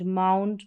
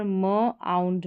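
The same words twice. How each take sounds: First: Said in the usual way. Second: म आउंड in two parts, "muh - aund"; sounding out. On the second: Shown as a demonstration. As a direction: hold म apart from आउंड. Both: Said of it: "इसका उच्चारण आउंड करके".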